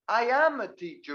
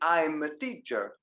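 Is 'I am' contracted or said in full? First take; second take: full; contracted. First: I am is said as two separate, emphasized words. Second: I am is contracted into one syllable. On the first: It insists on the fact against a denial. "I separate it for emphasis" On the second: It simply states a fact. "I say I'm a teacher"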